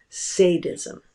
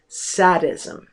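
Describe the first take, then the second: First: "sadism" with a long A, SAY-dizm; common American mispronunciation. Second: "sadism" with a short A, SAD-izm; correct pronunciation. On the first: Lecturer showing how most Americans say it, "sadism" as SAY-dizm. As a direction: open "sadism" with the word "say". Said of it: "mispronounce it as sadism". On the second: Lecturer correcting the word, "sadism" said as SAD-izm. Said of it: "the correct pronunciation of that word is". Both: Shown as a demonstration.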